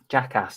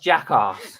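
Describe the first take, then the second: First: The word is said in a plain everyday accent. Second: The word is said in a posh upper-class accent. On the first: The speaker calls it right. "Jackass, not jackass" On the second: The speaker calls it wrong. "That's a posh version"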